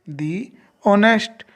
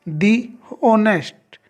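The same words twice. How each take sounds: The two takes are said the same way.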